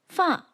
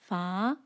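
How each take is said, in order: First: The pitch falls downward. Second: The pitch rises upward. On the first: "falls like this" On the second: "rises upwards like this"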